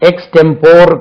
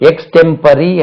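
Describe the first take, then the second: First: The word ends in 'por' with three syllables. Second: The word ends in 'pory' with four syllables. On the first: The speaker calls it wrong. "எக்ஸ்டெம்போர் கிடையாது" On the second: The speaker calls it right. "எக்ஸ்டெம்பரி என்று உச்சரி"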